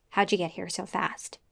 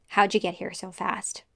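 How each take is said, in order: Both takes have the same delivery.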